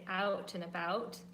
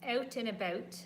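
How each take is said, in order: First: It is said in an American accent. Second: It is said in a Canadian accent. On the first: "the Americans say out and about" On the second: "as Canadians, we'll say out and about like that"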